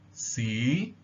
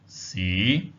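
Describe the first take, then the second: First: The pitch rises from mid to high. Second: The pitch starts lowest and rises slightly. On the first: The word means history. "the high rising tone. So here it rises to the top from a slightly lower level" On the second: The word means city. "starts at the lowest possible point and then rises upwards"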